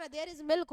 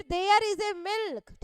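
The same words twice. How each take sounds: First: Said in the usual way. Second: Very slow, word by word, with a loud "There is a milk"; teacher reads the wrong sentence slowly to students; wrong example read slowly. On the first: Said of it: "होगा directly". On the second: Shown as a demonstration. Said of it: "नहीं लगाया जाता".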